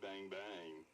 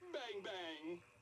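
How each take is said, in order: First: It is said in a flirty tone. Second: It is said in a happy tone.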